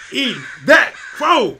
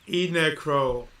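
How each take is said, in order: First: EATING THAT CROW punched slow, loud and high; emphatic gloating. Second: Said in the usual way. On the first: Real, not acted. Streamer rubbing it in to Hannah, each word of "Eating that crow" punched. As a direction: hit each word of "Eating that crow" separately, louder and slower.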